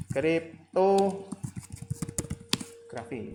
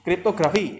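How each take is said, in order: First: "Kriptografi" very slowly, broken into parts with pauses; drawn-out term. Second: "Kriptografi" called out loud in one go; emphatic term. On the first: Lecturer showing students the term, drawn out slowly. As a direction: stretch out "Krip-to ... grafi" piece by piece. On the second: Lecturer announcing the topic to students, emphatic. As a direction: punch out "Kriptografi" as a loud heading. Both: Real, not acted.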